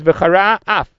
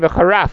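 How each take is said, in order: First: The two words are separated by a short pause. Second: The two words run together as one word. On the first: The speaker calls it right. "have a pause and then say af" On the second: The speaker calls it wrong. "You can't say v'charaf"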